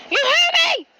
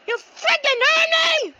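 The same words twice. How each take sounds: First: Angry yell. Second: Angry yell, stretched. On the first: Repeated threat. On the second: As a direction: stretch the threat, furious. Repeated threat, stretched. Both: Acted.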